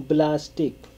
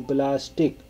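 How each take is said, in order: The two takes are said the same way.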